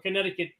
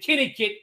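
First: It is said with a standard accent. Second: It is said with a New York accent.

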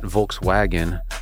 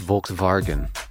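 First: The name is said the everyday English way. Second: The name is said an unusual, different way. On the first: The speaker calls it wrong. "It's not" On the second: The speaker calls it right. "That's the correct way to say it"

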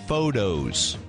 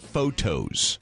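First: The middle consonant sounds like a soft d. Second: The middle consonant is a clear t sound. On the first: The speaker calls it wrong. "I said photos" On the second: The speaker calls it right. "instead of photos"

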